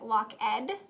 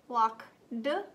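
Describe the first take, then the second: First: The word ends with an extra 'ed' syllable. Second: The word ends with a 'd' sound. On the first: "Is it lock ed"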